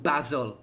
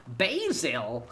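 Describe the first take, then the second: First: Said in the usual way. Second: Exclaimed mock-American "Basil", first vowel as "bay"; mock American accent. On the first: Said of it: "it's called basil". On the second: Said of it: "it's called basil, innit".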